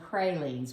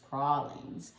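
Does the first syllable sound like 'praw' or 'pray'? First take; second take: pray; praw. First: The first syllable sounds like 'pray'. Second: The first syllable sounds like 'praw', South Louisiana style.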